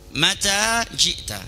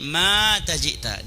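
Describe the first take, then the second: First: The second vowel of mata is long. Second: The first vowel of mata is long. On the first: It asks when someone came. The speaker calls it right. "Kalau tanya yang panjang maknya pendek" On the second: It says someone died and came. The speaker calls it wrong. "maknya dipanjangkan, tanya dipendekkan"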